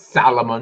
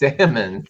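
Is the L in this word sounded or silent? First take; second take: sounded; silent. First: The L in the word is clearly pronounced. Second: The L in the word is left silent. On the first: The speaker calls it wrong. "It's not it's not Salomon" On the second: The speaker calls it right. "it's salmon"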